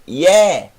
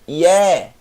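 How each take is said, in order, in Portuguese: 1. A vogal é um som de e aberto. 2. A vogal é um som de e aberto.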